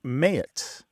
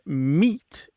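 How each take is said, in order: First: The vowel sounds like 'ay'. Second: The vowel sounds like 'ee'. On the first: This is the older pronunciation. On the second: This is the present-day pronunciation.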